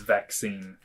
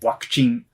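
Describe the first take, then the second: First: The word begins with a v sound. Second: The word begins with a w sound. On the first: This is the English form of the word. "which is supposed to be the same word, but it's quite different" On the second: This is the Japanese form of the word. "it's a uh, wa at the beginning. This is more Japanese"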